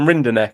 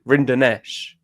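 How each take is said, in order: First: The name ends with a hard k sound. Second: The name ends with a soft sh sound. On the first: The speaker calls it wrong. "it's not even Rinderknech as well" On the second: The speaker calls it right. "It's Ring, Rinderknech"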